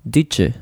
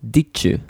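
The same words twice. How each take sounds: First: The d and y blend into a ch sound. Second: The d and y blend into a ch sound.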